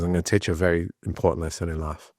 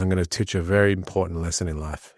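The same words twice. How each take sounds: First: Put-on light, quick Spanish accent. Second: Said in the usual way. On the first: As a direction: faster imitation of a Spanish manager. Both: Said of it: "thick Spanish accent".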